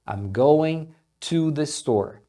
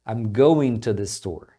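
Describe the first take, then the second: First: The word 'to' is said fully and clearly. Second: The word 'to' is quick, reduced to a t. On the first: "falando mais pausado ou dando mais ênfase no to, você vai ouvir dessa forma, to" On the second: "na fala mais rápida esse to sendo pronunciado como um t, bem rapidinho"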